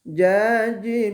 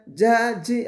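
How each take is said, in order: First: The consonant is soft with no hissing sound. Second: The consonant has a hissing sound. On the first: The speaker calls it right. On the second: The speaker calls it wrong. "bukan jaji. Ah, kalau ada bunyi desiran"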